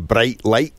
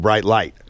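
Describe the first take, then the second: First: It is said in a Scottish accent. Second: It is said in an American accent. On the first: "in Scotland we say bright light" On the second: "In America they go bright light"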